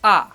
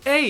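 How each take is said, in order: First: The letter has the Dutch name. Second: The letter has the English name. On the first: "our vowels are basically switched up" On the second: "In English, the vowels are A"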